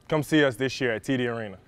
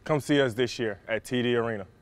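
First: It is said at a normal pace. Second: It is said a little more slowly.

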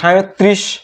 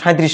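First: It uses the standard pronunciation with the r-cluster. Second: It uses the common everyday colloquial pronunciation. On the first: The speaker calls it right. "এটি 37" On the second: The speaker calls it wrong. "37 নয়"

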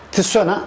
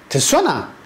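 First: The voice falls flat at the end. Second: The voice rises with stress at the end. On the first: It states that you are going. "böyle söylendiğinde soru arz etmiyor" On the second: It asks whether you are going. "böyle yaptığımızda tisona dediğimizde soru sormuş oluyoruz"

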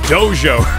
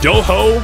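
First: The middle consonant is a j-sound. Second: The middle consonant is not a j-sound. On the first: The speaker calls it right. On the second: The speaker calls it wrong.

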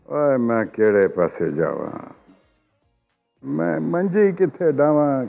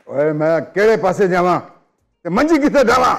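First: It is said in a sad tone. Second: It is said in an angry tone.

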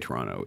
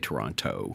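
First: The last T sound is left out. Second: The last T sound is clearly pronounced. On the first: The speaker is a local. "if you're from Toronto, you say Toronto" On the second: The speaker is not a local. "If you're not from Toronto, you say Toronto"

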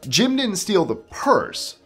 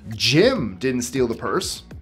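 First: The stress is on "purse". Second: The stress is on "Jim".

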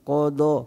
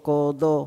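Both takes have the same delivery.

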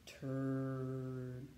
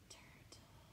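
First: It is said very slowly. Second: It is said quietly.

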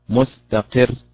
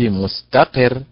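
First: The stress does not fall on ta. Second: The stress falls on the middle syllable ta. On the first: The speaker calls it right. "هي مستقر" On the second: The speaker calls it wrong. "وضعت النبرة على التاء فقلت مستقر"

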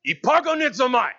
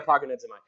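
First: The word is said loudly and forcefully. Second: The word is said plainly, without force. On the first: The speaker calls it right. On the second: The speaker calls it wrong.

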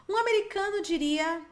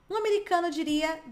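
The two takes are said the same way.

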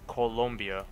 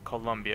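First: The second syllable has an 'oh' vowel sound. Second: The second syllable has an 'uh' vowel sound. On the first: The speaker calls it right. "it's Colombia with an O" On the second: The speaker calls it wrong. "It's not Colombia"

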